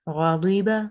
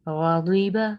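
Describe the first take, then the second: Both takes have the same delivery.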